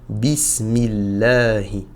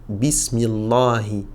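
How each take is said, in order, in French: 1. Le son L est léger, non emphatique. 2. Le son L est lourd et emphatique. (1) "le lam va perdre son aspect emphatique" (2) "on ne dira pas"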